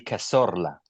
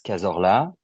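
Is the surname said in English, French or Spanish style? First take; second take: Spanish; French. First: The surname is said with a Spanish accent. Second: The surname is said with a French accent. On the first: "if you go full Spanish" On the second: "the French way would be"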